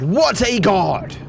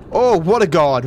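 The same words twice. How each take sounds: First: Slow high stretched "what a god"; drawn-out boast. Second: Loud exultant oh; triumphant cheer. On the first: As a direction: savor the brag. Repeating boast. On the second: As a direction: crow over the jump. Landing the jump. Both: Real, not acted.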